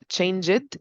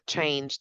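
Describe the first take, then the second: First: The ending is said as an extra syllable. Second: The ending adds no extra syllable. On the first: The speaker calls it wrong. "It's not change it" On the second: The speaker calls it right. "it's change. Take care of the ed ending"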